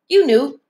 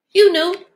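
First: Said in the usual way. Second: You knew pitched higher and pushed harder; insistent accusing You knew; higher, pressed repeat. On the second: Real, not acted.

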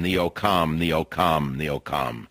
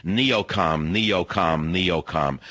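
First: Said in the usual way. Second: "neocom" with its final M hummed and held; emphasis on the M. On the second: Shown as a demonstration. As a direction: punch the "M" at the end of "neocom". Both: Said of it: "with an emphasis on the M".

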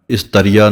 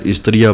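First: ਇਸਤਰੀਆ as "is-tariya", full a after t; wrong reading. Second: ਇਸਤਰੀਆ as "istri-aa", t joined to r; correct reading. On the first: Teacher showing what not to say, ਇਸਤਰੀਆ as "is-tariya". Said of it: "ਇਸਤਰੀਆ ਨਹੀਂ ਕਹਿਣਾ ਹੈ". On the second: Teacher modelling correct reading, ਇਸਤਰੀਆ as "istri-aa". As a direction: keep "str" tight in ਇਸਤਰੀਆ. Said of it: "ਇਸਤਰੀਆ ਪੜ੍ਹਨਾ ਹੈ". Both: Shown as a demonstration.

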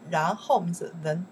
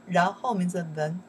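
Both takes have the same delivery.

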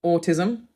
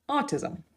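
First: Autism with a rounded ore-tism start, rising at the end; Australian autism, rounded first vowel. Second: Autism as ah-tism with an open ah, high and soft; American autism, open ah vowel. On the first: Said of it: "is said with a W sound". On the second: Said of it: "the American version is just like a double A". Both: Shown as a demonstration.

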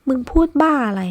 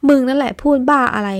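First: Raised, higher angry snap at a friend; furious disbelief, voice up high; angry shout. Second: Louder, higher shout hurling it back; indignant shout, pitched up; angry retort. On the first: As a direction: fire it back hot and loud. Friends quarrel, heated retort. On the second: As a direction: throw his words right back at him. Friend throws the words back. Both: Acted.

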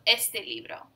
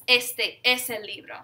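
First: Said in the usual way. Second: "este" given firm weight before "es el libro"; emphatic ESTE. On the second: Shown as a demonstration. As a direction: stress "este" and let it stand apart. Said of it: "this is an emphatic this".

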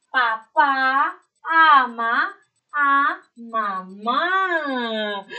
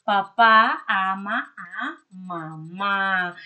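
First: "Papá ama a mamá" read very slowly, each word stretched and loud; slow reading aloud. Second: "Papá ama a mamá" read slowly and steadily, words drawn out a little; slow reading aloud. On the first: Teacher reading the sentence aloud to young pupils, slow and drawn out. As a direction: read it out syllable by syllable for little kids. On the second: Teacher rereading the sentence for the pupils, slow and even. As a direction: reread it calmly for the class. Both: Shown as a demonstration. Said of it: "vamos a ver qué oración salió".

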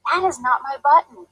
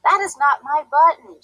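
First: Higher, a touch of a whine; understated wailing denial; mild wail. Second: Higher, pushed denial, lightly hammed; a touch of a frustrated shout; mild shout. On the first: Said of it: "wailed Toad". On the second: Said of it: "shouted Toad". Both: A narrator's reading.

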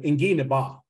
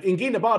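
First: Said in the usual way. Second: "Ingi na ba" lifted high to single it out; contrastive stress. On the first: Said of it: "people try to get away with". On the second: Shown as a demonstration. Teacher correcting learners, lifting the phrase high. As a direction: point up "Ingi na ba" as the phrase in question. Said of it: "doesn't mean".

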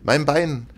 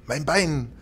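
First: High, louder cry of Bein; pained scream. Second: High anguished cry on Bein; pained scream. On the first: Ghost stabbed in the leg, screaming louder. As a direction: scream Bein again, more desperate. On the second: Ghost stabbed in the leg, screaming in pain. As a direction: wail Bein as the knife goes in. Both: A narrator's reading. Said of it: "und schrie".

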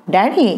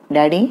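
First: Shouting. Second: First call, moderate call for dad; calling his father from the door. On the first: Son storms in, shouting for his father. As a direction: call again, harder, rising. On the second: Son arrives home calling out to dad. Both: Acted. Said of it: "అని అరుస్తూ వచ్చాడు".

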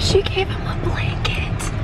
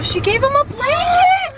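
First: Breathy whisper from a lost voice; hoarse whisper. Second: High excited squeal. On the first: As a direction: whisper it, voice almost gone. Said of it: "I'm losing my voice". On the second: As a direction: squeal with delight. Excited about baby gift. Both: Real, not acted.

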